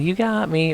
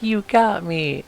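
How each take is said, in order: First: It is said lightly and playfully. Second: It is said dramatically, like dying.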